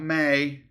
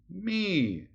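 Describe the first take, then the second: First: The vowel is an 'ay' sound. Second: The vowel is a long 'ee' sound. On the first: The speaker calls it wrong. "not May" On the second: The speaker calls it right. "It's going to be me"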